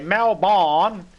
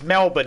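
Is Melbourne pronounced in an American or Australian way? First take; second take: American; Australian. First: It is pronounced the American way. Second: It is pronounced the Australian way. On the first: The speaker calls it wrong. "they say Melbourne" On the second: The speaker calls it right. "It's Melbourne, idiots"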